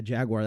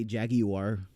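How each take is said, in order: First: Jaguar said the American way, "JAG-wahr"; US pronunciation. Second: Jaguar said British-style, "JAG-ee-war"; UK pronunciation. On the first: Streamer telling chat the US way, Jaguar as "JAG-wahr". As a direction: say Jaguar in two syllables, American style. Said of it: "That's how we say it in the U S". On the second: Streamer mimicking how UK viewers say it, Jaguar as "JAG-ee-war". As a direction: stretch Jaguar to three syllables, "JAG-ee-war". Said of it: "however people say it in the U K". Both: Shown as a demonstration.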